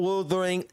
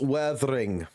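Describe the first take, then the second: First: The first vowel sounds like 'uh'. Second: The first vowel sounds like 'eh'. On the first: The speaker calls it wrong. "It's not wuthering" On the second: The speaker calls it right. "it's weathering. one hundred fucking percent"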